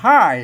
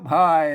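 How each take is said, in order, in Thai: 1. คำนี้มีเสียงตกธรรมดา 2. คำนี้มีเสียงต่ำ (1) "ภาษาไทยมันออกได้แค่เสียงโทปกติ" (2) "ไตลือน่ะเปิ้นออกเป็นเสียงเอก"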